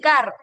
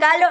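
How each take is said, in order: First: The r is pronounced as a trilled r. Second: The r is replaced by an l sound. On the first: This is the standard pronunciation. The speaker calls it right. "en vez de decir carro" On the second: This is how children with rhotacism say it. The speaker calls it wrong. "dicen calo"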